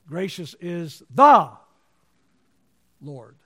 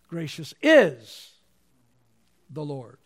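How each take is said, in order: First: The word "the" carries the main stress. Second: The word "is" carries the main stress. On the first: There is only one Lord. "There's only one Lord" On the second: God is gracious right now. "Presently, God is gracious"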